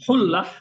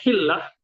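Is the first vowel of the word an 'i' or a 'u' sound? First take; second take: u; i. First: The first vowel is a 'u' sound. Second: The first vowel is an 'i' sound. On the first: "yang umum atau yang benar itu hullah" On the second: "ada dibaca juga hillah"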